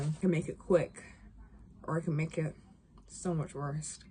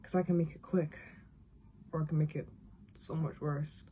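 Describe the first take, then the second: First: Lightly acted cold threat, hushed and sinking; a soft, understated attempt at a menacing line; Ellie. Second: Second try at a cold threat, quieter still; hushed, lightly acted menace that drops away softly; Ellie. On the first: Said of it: "this is me and Ellie". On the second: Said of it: "this is Ellie, okay?".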